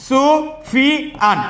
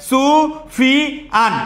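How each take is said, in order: No difference in how they are said.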